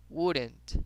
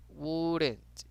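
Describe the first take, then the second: First: "wouldn't" with no L sound; silent L. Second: "wouldn't" stretched slowly, no L sound; drawn-out silent L. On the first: Teacher shows the unpronounced L, clear model. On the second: Teacher repeats the word for students, drawn out. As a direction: draw out the vowel of "wouldn't", L silent. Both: Shown as a demonstration. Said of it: "no la pronunciamos".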